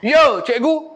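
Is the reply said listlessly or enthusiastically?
enthusiastically. It is said with energy and enthusiasm.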